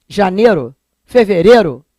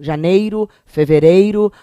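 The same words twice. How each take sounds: First: "Janeiro. Fevereiro" as "janêro, feverêro"; no glide in "Janeiro. Fevereiro"; pronúncia carioca sem ditongo. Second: "Janeiro, fevereiro" with a full EI glide; ditongo pronunciado. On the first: ("Janeiro. Fevereiro" com E puro, sem o I) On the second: ("Janeiro, fevereiro" com o EI bem marcado) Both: Shown as a demonstration. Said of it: "O carioca não fala aquele ditongo".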